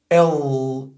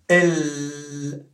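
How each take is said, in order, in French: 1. Le L est à l'américaine. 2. Le L est à la française. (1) "le L à l'américaine" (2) "Le L à la française"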